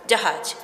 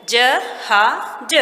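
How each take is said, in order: First: Said in the usual way. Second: "ज हा ज" as three separate sounds; "ज हा ज" broken up for learners; syllables split. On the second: Shown as a demonstration. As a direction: sound out "ज", "हा", "ज" with gaps. Sounds out the word's parts.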